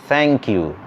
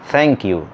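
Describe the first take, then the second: Both takes have the same delivery.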